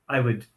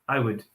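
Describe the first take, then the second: The two takes are said the same way.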